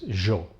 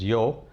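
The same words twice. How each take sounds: First: It begins with a 'sh' sound. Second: It begins with a 'y' sound. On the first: "In Argentinian Spanish is" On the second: "in Castilian or in Mexican Spanish is"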